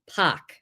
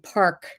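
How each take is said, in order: First: It has a broad vowel and no r. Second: It has a standard vowel and r sound. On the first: "it's pock. So it's this weird A" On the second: "instead of saying park"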